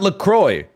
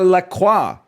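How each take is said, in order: First: The name is said with an English pronunciation. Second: The name is said with a French pronunciation. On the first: The speaker calls it wrong. "not LaCroix" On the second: The speaker calls it right. "If you wanted the French, the French pronunciation, you should accept that you are LaCroix"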